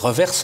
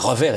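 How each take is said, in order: First: The final s is sounded at the end. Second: The final s is silent at the end. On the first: The speaker calls it right. "Il faut prononcer Reverse" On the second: The speaker calls it wrong. "ceux qui prononçaient revers étaient très mal vus"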